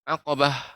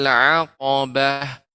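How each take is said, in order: First: The word is read quickly and rushed. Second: The word is read slowly and evenly. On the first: The speaker calls it wrong. "Tidak aqobah" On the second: The speaker calls it right. "jangan jangan terlalu cepat ketika membaca aqobah"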